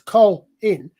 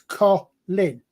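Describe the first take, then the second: First: The L closes the first syllable; long O. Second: The L starts the second syllable; short O. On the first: This is the American way of saying it. "If you put the L at the first bit, so it's Col in, that automatically slightly draws out the O" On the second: This is the English way of saying it. "I put it on the second vowel, so it's Colin, which shortens the, the, the O"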